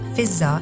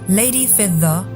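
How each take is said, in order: First: The middle consonant is a z sound. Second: The middle consonant is a d sound.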